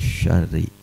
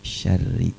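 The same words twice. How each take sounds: First: The sh sound is heavy and thick. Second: The sh sound is light and thin. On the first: The speaker calls it wrong. "jangan ketebalan ya" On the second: The speaker calls it right. "syarri masih tipis"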